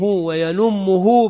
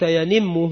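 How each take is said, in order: First: The vowel after the n is 'u'. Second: The vowel after the n is 'i'. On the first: "وضمها" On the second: "بكسر النون"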